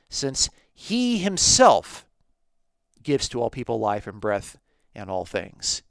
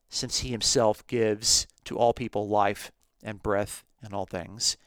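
First: The words 'he himself' are strongly stressed. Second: The words 'he himself' carry no special stress.

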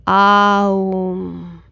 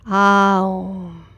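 First: It glides through separate sounds, A-U-M. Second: It glides through separate sounds, A-U-M.

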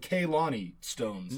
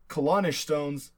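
First: The name ends without an 'sh' sound. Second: The name ends with an 'sh' sound. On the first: This is how locals say the name. "They call it the Kalani stones" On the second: This is how outsiders say the name. "You and I would call it the Kalanish stones"

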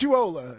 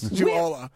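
First: The name is said with an 'o' vowel. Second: The name is said with an 'a' vowel. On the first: The speaker calls it right. "It's Juwala with an O, not an A" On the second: The speaker calls it wrong. "technically is being mispronounced every time someone says Juwala"

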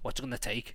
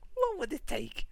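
First: It sounds serious and confrontational. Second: It sounds light and joking.

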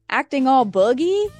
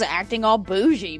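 First: The last word has a hard 'g' middle sound. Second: The last word has a soft 'zh' middle sound. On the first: The speaker calls it wrong. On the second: The speaker calls it right.

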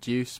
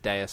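First: The word sounds like 'deuce'. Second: The word sounds like 'day-us'. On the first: The speaker calls it wrong. "I used to pronounce it Deuce" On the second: The speaker calls it right. "but it's Deus"

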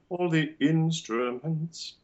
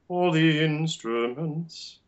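First: A glottal catch comes before 'instruments'. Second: The words flow together without a break. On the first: "there would be a glottal" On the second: "you can link it through"

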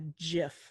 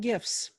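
First: The word starts with a soft 'j' sound. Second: The word starts with a hard 'g' sound. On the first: "technically a GIF, like the peanut butter" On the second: "I still call them GIFs"

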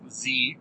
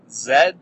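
First: The letter is said the American way, zee. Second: The letter is said the Canadian way, zed.

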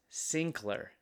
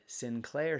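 First: The name is said the Scottish way. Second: The name is said the usual American way. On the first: "Not in Scotland, it's Sinclair" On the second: "here in the United States"

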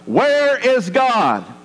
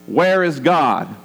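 First: It is shouted angrily. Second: It is said loudly and sternly.

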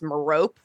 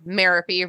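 First: The name does not rhyme with therapy. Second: The name rhymes with therapy. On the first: This is the American pronunciation. "the American pronunciation is Merope" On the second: This is the UK pronunciation. "the UK pronunciation said Merope rhymes with therapy"

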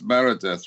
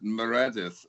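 First: The name is said the English way. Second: The name is said the Welsh way. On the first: "in the English speaking world, it's Meredith" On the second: "we pronounce it Meredith"

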